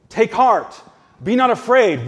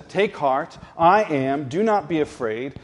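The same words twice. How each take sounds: First: Higher and louder, proclaiming "Take heart, be not afraid"; forceful preaching. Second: Said in the usual way. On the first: Acted. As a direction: declare it to the congregation with full force. Preacher repeats Jesus' words forcefully.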